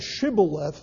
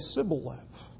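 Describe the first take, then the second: First: The word begins with an SH sound. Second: The word begins with an S sound. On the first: The speaker calls it right. "instead of saying Shibboleth" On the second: The speaker calls it wrong. "they would say Sibboleth"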